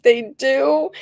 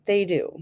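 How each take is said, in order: First: High, rising disbelief; surprised question. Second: Said in the usual way. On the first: Retold or imitated. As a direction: sound amazed and unsure, pitch up. Her surprised reply to doctor.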